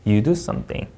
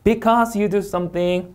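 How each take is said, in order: First: Slow, low "you do something"; measured read with "something" falling low. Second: Slow read, lifted "something"; drawn-out unfinished clause, "something" tilting up; rising tone. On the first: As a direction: bring "something" down to close the sentence. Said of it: "내려 있고". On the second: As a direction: hold "Because" high and leave "something" hanging up. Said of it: "올려 있고". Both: Shown as a demonstration.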